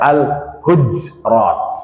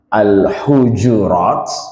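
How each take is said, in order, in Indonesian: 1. Tidak ada vokal yang mengikuti bunyi j. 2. Vokal u mengikuti bunyi j.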